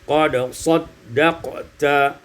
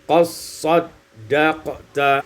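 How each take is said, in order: First: The d is heard before the s. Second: The d is merged into the s.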